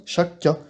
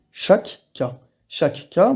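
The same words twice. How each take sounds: First: Chaque cas run fast with one long K sound; quick demo. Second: Chaque cas with the two K sounds said apart; careful demo. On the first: Teacher shows learners fast chaque cas, double K merged. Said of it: "et si on le dit rapidement". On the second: Teacher shows learners chaque cas, both K sounds said. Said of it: "Je vous donne un exemple". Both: Shown as a demonstration.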